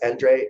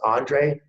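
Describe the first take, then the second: First: The name is said the European way. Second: The name is said the American way.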